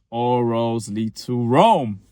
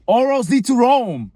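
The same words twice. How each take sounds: First: All roads lead to Rome drawn out slowly; patient, deliberate repeat; slow insistence. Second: All roads lead to Rome, higher and louder; loud, high-pitched insistence; exasperated outburst. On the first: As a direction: spell it out word by word. Repeating the phrase to her. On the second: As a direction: blurt it out, fed up. Repeating the phrase louder. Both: Acted.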